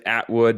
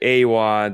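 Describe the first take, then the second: First: The name is said with a T sound. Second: The name is said without a T sound. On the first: The speaker calls it wrong. "Is there a T in there? No, there's not" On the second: The speaker calls it right. "You say Awad"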